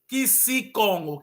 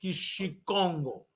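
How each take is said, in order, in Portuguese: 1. O nome começa com som de 'k'. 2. O nome começa com som de 'sh'. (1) "Na verdade, o bairro é Kisikongo" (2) "o bairro lá no Is, Xicongo"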